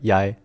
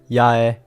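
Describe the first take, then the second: First: The name is said quickly. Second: The name is said at a normal speed. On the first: "if you say it fast, it's like" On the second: "you don't usually say them separately. So it would just be like"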